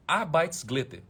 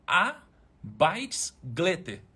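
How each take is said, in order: First: Said in the usual way. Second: Arbeitsglätte drawn out very slowly, syllable by syllable, "ar-baits-glé-te"; slow dictation. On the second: Shown as a demonstration. Dictating the word to his wife for the chat, very slowly. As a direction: spell out Arbeitsglätte slowly so it can be typed. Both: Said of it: "Ô, amor, escreve pra galera".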